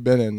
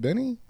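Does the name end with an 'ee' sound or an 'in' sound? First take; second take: in; ee. First: The name ends with an 'in' sound. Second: The name ends with an 'ee' sound. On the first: The speaker calls it wrong. "people would always call you Benin" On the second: The speaker calls it right. "isn't that Benny?"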